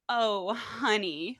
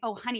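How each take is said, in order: First: It is said in a breathy, sultry voice. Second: It is said in a plain, ordinary voice. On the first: "like trying so hard to be sexy" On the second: "instead of saying"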